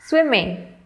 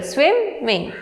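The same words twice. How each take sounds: First: Said in the usual way. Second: "swimming" split in two, SWIM higher and stressed; stress on first syllable. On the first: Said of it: "there are two syllables". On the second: Shown as a demonstration. Teacher demonstrating syllable stress, "swimming" split with SWIM stressed. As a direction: say "swimming" as SWIM, ming, lifting SWIM. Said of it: "the stress is on the first syllable".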